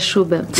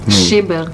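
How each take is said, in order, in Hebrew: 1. התנועה הראשונה היא צליל 'u'. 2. התנועה הראשונה היא צליל 'i'.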